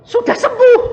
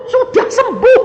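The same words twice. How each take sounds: First: Very high, loud triumphant shout, falling; proclaimed healing. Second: Very high, loud shout ending on a rise; repeated proclamation. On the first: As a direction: call it out as a proclamation. (menyatakan kesembuhan dengan seruan keras yang turun) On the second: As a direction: echo it upward, triumphant. (mengulang seruan kesembuhan dengan nada naik) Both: Retold or imitated.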